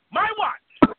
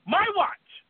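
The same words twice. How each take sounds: First: "My" pitched high and punched loud; "My" shouted high, "watch" falling; higher and louder. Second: "My" jumps much higher; "My watch." with "My" pitched high and falling off; rising repeat. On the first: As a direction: top the last take, "My watch." near-shouted. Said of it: "repeated louder". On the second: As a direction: push "My" way up high, then fall. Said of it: "repeated higher". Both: Acted.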